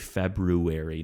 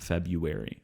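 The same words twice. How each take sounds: First: The first r sound is pronounced. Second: The first r sound is dropped. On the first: "trying to tell me to say February" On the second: "I'm not going to throw in that first R"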